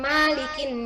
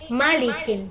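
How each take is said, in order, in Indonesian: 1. Vokal pertama diucapkan panjang. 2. Vokal pertama tetap pendek. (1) "Ini bukan malikin nas" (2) "maknya pendek"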